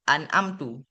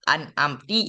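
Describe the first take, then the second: First: The word ends in the vowel u. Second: The word ends in the vowel i. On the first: "ataupun an amtu" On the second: "gue baca an amti"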